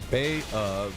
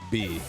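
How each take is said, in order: First: The name is said with two syllables. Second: The name is said with one syllable. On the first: "I used to pronounce it like Bay of" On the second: "most people who play pronounce it like B"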